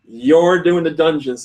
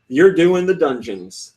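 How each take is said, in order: First: "You're" drawn out and stressed. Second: Said in the usual way. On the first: Retold or imitated. Bosses telling a designer he works alone, stress on "You're". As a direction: lean slowly on "You're". Retold answer to who else.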